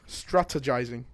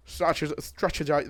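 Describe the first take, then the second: First: "Strategizing" sounded out carefully, syllable by syllable; low, deliberate "Strategizing", completed without a slip; saying it slowly. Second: Botched, cut-short attempts at "Strategi-"; tripping over a word. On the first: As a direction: take your time over each syllable of "Strategizing". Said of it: "I need to say it slowly". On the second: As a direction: stumble on "Strategi-", breaking off before the end. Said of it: "I can't say that word". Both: Real, not acted.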